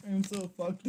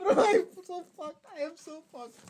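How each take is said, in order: First: Said in the usual way. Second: Higher and louder, giddy exclaim; loud giddy despair. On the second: Real, not acted. Streamer laughing at his own blunder, loud giddy cry. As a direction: blurt it out half-laughing. Repeats the phrase.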